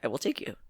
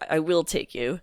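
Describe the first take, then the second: First: It is said in a friendly, kind tone. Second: It is said in an aggressive, angry tone. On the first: The writer is offering to help. The speaker calls it right. "no, I think they're saying" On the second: The writer is angry. The speaker calls it wrong. "Doesn't that sound kind of aggressive? It sounds like they're mad"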